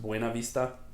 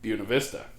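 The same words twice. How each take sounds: First: It is pronounced the Spanish way. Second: It is pronounced the local Virginia way.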